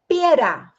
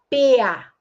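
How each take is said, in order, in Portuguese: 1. O R do meio está presente. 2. O R do meio está apagado. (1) "em vez de falar pera" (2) "fala pea"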